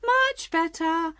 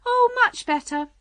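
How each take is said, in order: First: Slow, high, stretched squeal; rising higher. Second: High, loud delighted cry. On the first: Queen getting carried away as she answers, squealing. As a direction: draw it out in a high voice. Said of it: "her voice getting higher and higher". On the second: Queen answering Alice about her finger, crying out. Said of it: "cried the Queen". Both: A narrator's reading.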